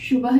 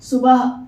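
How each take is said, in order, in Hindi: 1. यह शब्द 'sh' ध्वनि से शुरू होता है। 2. यह शब्द सादे 's' ध्वनि से शुरू होता है।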